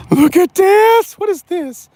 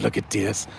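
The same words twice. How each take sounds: First: Excited. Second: Said in the usual way. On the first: Real, not acted. Showing off the truck's floor.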